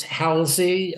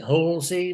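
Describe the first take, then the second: First: Halsey with a short "a" as in "pal"; slow Halsey, first syllable "hal"; first surname pronunciation. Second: Halsey with an "aw" first vowel; Halsey said "HAWL-zee", lightly rising; alternative surname pronunciation. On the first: Guest answering how his surname goes, Halsey said "HAL-zee". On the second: Guest offering either version of his surname, Halsey said "HAWL-zee". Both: Shown as a demonstration. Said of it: "whatever you prefer".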